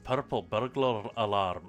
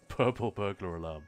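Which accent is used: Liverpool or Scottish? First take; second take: Scottish; Liverpool. First: It is said in a Scottish accent with rolled Rs. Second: It is said in a Liverpool accent. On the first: "that's if you're doing the whole rolled R thing" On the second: "you can say that about people from Liverpool as well"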